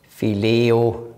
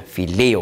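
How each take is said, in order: First: Said in the usual way. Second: "Phileo" stressed on the LE; stress on second syllable. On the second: Shown as a demonstration. Teacher shows students the Greek accent, "Phileo" stressed on LE. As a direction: put the weight on the middle of "Phileo": phi-LE-o. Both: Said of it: "Und Betonung ist hier".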